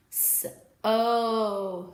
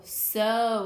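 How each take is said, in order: First: "s-o" split into s and a long stretched oh; sounded out long O. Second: Said in the usual way. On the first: Shown as a demonstration. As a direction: stretch the oh in "s-o" after a separate s. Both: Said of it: "you are going to hear the long O sound".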